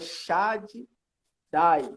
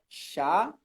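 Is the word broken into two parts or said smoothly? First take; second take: broken; smooth. First: The word is split into two separate parts. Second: The word is said smoothly with a doubled consonant. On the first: The speaker calls it wrong. "na hora da pronúncia não é para separar" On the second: The speaker calls it right. "Literalmente, duplica"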